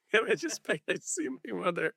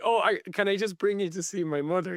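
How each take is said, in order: First: Higher, laughing Dublin cabbie plea; laughing through quote. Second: Put-on eager cabbie in a light Dublin accent. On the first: Retold or imitated. Retelling cabbie's plea to Bill, laughing. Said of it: "Dublin accent". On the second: Taxi driver begging Bill to meet his mother, light Dublin accent. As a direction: beg him like an excited Dublin cabbie. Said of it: "thick working class, I guess, Dublin accent".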